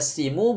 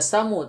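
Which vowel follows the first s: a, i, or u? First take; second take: i; a. First: The first vowel is i. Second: The first vowel is a. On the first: "Bukan dibaca simu" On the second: "bukan dibaca samu"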